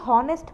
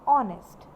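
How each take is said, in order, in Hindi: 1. शब्द की शुरुआत में h की आवाज़ है। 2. शब्द स्वर से शुरू होता है, इसमें h नहीं है। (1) "कुछ लोग इसे हॉनेस्ट पढ़ते हैं" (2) "द राइट प्रोनाउंसिएशन... वो है ऑनेस्ट। एच को हम नहीं पढ़ते हैं"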